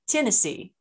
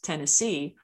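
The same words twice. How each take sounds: First: It is said in Southern Appalachian accent, stress shifted. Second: It is said in a mainstream American accent.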